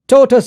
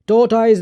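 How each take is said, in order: First: The ending sounds like 'tus'. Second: The ending sounds like 'toys'. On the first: The speaker calls it right. "बोलना है" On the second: The speaker calls it wrong. "नहीं बोलना"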